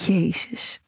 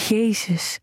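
First: A breathed, voiceless "Jezus"; whispered oath. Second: Voiced, falling "Jezus" on a gasp of pleasure; aroused gasp. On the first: Acted. Whispered oath while watching. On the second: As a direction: let "Jezus" fall out as a moan. Aroused exclamation in scene.

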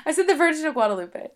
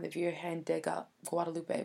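First: High, loud and quick through laughter; laughing English version. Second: Poorly attempted Spanish accent; bad Spanish accent. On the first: Co-host demands a repeat in English, laughing high and loud. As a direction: say it in English, cracking up. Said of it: "Okay, say it in English". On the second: Speaker trying to say Mary's title in Spanish, bad Spanish accent. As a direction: stumble through an awkward Spanish accent. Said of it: "that was the worst accent ever". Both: Real, not acted.

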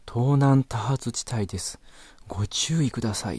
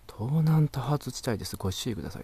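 First: Loud car navi announcement. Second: Mock car navi announcement. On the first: Retold or imitated. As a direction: boom it out like a car navi warning the whole street. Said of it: "めちゃくちゃ大きい声で". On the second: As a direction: recite it like a prim navigation system. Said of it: "って".

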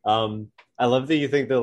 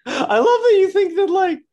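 First: Said in the usual way. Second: Much higher and louder, laughing through it; squeaky voice cracking into a laugh; voice gone high. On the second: Real, not acted. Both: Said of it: "my voice is high".

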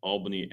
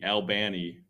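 First: Said in the usual way. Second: Albany said "al-BANN-ee"; Georgia pronunciation. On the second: Shown as a demonstration. Host showing how Georgians say it, Albany as "al-BANN-ee". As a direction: say Albany with BAN stressed, flat A. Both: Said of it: "how they pronounce".

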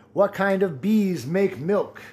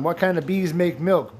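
First: "What kind of bees make milk?" asked slowly, bees stretched; slow riddle. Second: Said in the usual way. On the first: Shown as a demonstration. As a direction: drag out the riddle to tease.

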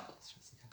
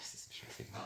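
First: Whisper. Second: Said in the usual way. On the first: Real, not acted. Repeated under breath.

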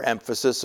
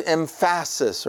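First: Said in the usual way. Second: Emphasis stressed as em-FASS-is; playfully misplace the stress in emphasis onto PHA; joke mispronunciation. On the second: Shown as a demonstration. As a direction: hit the second syllable of emphasis, for a joke. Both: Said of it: "trying to play a little joke".

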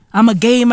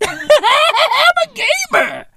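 First: Said in the usual way. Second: High, drawn-out giggling boast; laughing squeal. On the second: Acted. Comedian bragging about trophy level, high laughing squeal. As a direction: squeal it slowly through a laugh.

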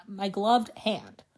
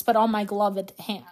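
First: "gloved" को धीमे और ज़ोर से; slow emphatic. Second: Said in the usual way. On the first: Real, not acted. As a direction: stress on gloved, drawn out slowly. Repeats for emphasis.

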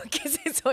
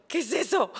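First: The question again through a laugh; laughing amazement. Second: High, wondering mock amazement; amazed question. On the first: Retold or imitated. Wife replaying husband's wonder, now laughing. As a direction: giggle while asking it. Same quote repeated with laugh. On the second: Wife imitating husband discovering the bathroom, amazed. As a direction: imitate his childlike wonder.

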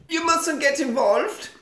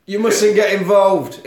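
First: High, slow, badly faked French accent; squeaky attempt at a Frenchwoman's accent. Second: Slow, louder attempt at French accent, moderately raised; deliberate mock-French accent, less squeaky; second French attempt. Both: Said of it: "I can't do a French accent".

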